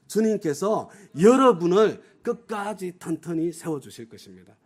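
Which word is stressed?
여러분을. The stress is on 여러분을.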